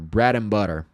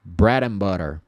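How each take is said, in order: Both takes have the same delivery.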